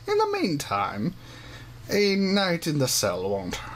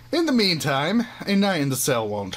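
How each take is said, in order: First: It is spoken in a gruff old man voice. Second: It is spoken in the character's usual voice. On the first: The speaker calls it wrong. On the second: The speaker calls it right.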